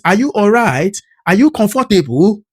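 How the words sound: A Nigerian speaker puts on a British accent.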